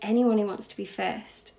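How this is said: It is said in a gentle, level tone. The speaker is talking as an equal. The speaker calls it right. "I'm on your level"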